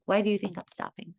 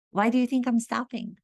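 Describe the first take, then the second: First: Said in the usual way. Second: Higher, insistent teacher's question; pressing repeat. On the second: Retold or imitated. Acting teacher pressing a student for the answer, insistent. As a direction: put the question to them more pointedly.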